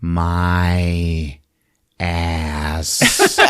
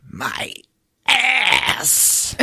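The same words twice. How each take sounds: First: Low, very drawn-out monster groan; monster in pain. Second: Strained, high cry on the last word; pause, then wail the second word; monster in pain. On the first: Monster stunned by the shot, slow low groan. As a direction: stretch each word slowly, with a long pause. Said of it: "he just goes". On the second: Monster walking about holding his behind, high pained wail. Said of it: "he's like". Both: Acted.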